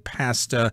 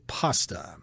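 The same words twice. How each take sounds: First: It is said with a Canadian pronunciation. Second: It is said with an American pronunciation. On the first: "I think I've heard the Canadians say pasta" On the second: "if you're in the U S, they will say pasta"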